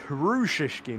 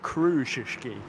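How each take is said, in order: First: The name begins with a breathy H sound. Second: The name begins with a hard K sound. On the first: The speaker calls it right. "It's Hrushishki" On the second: The speaker calls it wrong. "not Krushishki"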